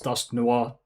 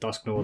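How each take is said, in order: First: The second part is said like French noir. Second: The second part is said in an anglicized way. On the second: "because I have always pronounced it Dusknoir"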